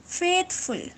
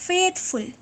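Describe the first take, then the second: No difference in how they are said.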